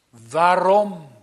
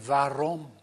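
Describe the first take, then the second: First: 'Waarom?' met meer nadruk uitgeroepen; uitroep van ontzetting. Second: Said in the usual way. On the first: Retold or imitated. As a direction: roep het ontzet uit. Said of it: "dat is een uitroep van ontzetting". (ontzette uitroep) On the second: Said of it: "En dan zegt hij".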